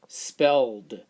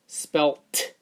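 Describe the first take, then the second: First: The ending is pronounced as a d sound. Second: The ending is pronounced as a t sound. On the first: The speaker calls it right. "How about d?" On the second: The speaker calls it wrong. "First with the t"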